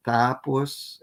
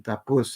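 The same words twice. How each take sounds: First: TA-pos, verb-root accent; first-syllable stress. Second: Ta-PUS, short unstressed first syllable; final-syllable stress. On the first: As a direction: say "tapos" with the accent on TA. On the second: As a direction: say "tapus" with the accent on PUS. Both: Shown as a demonstration. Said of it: "put the accent on the final syllable".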